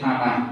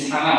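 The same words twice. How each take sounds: First: The word begins with a th sound. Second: The word begins with a plain s sound. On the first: The speaker calls it right. "শব্দটি হবে সানা" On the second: The speaker calls it wrong. "আসলে শব্দটি সানা হবে না"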